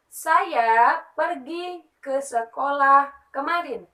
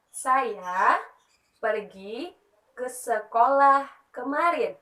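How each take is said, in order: First: Slow, louder, clear reading of "Saya pergi ke sekolah kemarin"; slow example sentence. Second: "Saya" "pergi" "ke sekolah kemarin" with pauses between each part; broken into parts. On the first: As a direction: read it out slowly as one sentence. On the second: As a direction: split the sentence into its parts with pauses. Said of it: "saya" ini merupakan subjek". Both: Shown as a demonstration.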